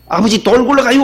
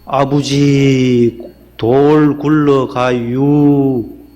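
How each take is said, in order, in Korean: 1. 빠르고 재빠르게 말해요. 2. 느리고 길게 늘여서 말해요. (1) "재빠르게 말했대요" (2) "충청도 분들이 좀 느린가 봐요"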